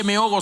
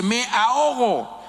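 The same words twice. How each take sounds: First: Said in the usual way. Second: Me ahogo drawn out, high and urgent, like real panic; desperate cry. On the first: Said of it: "No se dice". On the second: Shown as a demonstration. Preacher showing the right way to call for help, drawn-out desperate cry. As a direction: cry me ahogo slowly as if really drowning. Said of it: "se dice".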